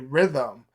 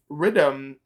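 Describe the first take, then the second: First: The word is said with a standard accent. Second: The word is said with a Jamaican accent. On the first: "he's trying to say rhythm" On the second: "That's a Jamaican pronunciation of rhythm"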